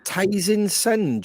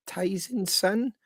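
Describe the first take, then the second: First: Said in the usual way. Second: Ties in Sun? with the voice rising on Sun; slow, doubtful, lifting Sun up into a question; questioning rise. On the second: Real, not acted. Asking the guest whether the pub is Ties in Sun, questioning rise.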